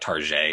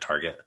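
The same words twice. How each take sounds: First: It is said in a fancy, French-like way. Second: It is said in the plain, ordinary way.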